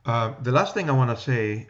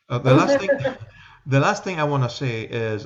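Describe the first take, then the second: First: Said in the usual way. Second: Quick, loud New York accent. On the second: Shown as a demonstration. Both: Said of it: "see how fast I can talk with my New York accent".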